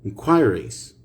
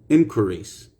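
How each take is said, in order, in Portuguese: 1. É dito com sotaque britânico. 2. É dito com sotaque americano. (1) "British English" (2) "American English"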